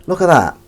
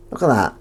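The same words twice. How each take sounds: First: Eager show-off. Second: Said in the usual way. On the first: Real, not acted.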